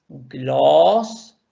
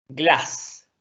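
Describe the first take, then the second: First: Gloss with a long O, a bit louder; long vowel. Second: Glass with a short A; short vowel. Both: Shown as a demonstration. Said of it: "vocal corta".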